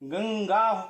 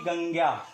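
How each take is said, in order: First: The nasal is a full ng consonant. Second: The nasal is only a nasalized vowel. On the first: The speaker calls it right. "इसका उच्चारण अनुस्वार की तरह ना होकर के पंचमाक्षर की तरह होगा" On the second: The speaker calls it wrong. "ना कि"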